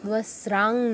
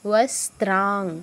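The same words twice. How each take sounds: First: No t sound is said before the r. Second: A t sound is said before the r. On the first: The speaker calls it wrong. "নয়" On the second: The speaker calls it right. "দন্তস্ব তয় রফলা"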